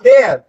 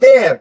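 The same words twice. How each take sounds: No difference in how they are said.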